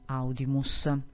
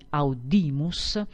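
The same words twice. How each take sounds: First: The stress is on the first syllable. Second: The stress is on the second syllable. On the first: The speaker calls it wrong. "e non audimus" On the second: The speaker calls it right. "l'accento cade sulla penultima sillaba"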